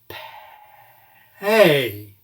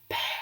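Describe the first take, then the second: First: It starts whispered, then voice turns on halfway. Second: The whole word is whispered slowly. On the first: "begin by whispering it, and halfway through we will turn on normal voicing" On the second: "Let's whisper that word slowly"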